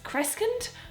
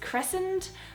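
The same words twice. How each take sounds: First: The middle has a hard K sound. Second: The middle has no hard K sound. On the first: The speaker calls it wrong. "it should be a harsh K sound" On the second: The speaker calls it right. "this is actually pronounced crescent"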